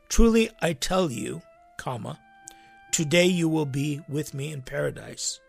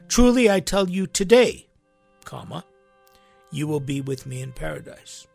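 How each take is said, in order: First: The break comes before the word 'today'. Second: The break comes after the word 'today'.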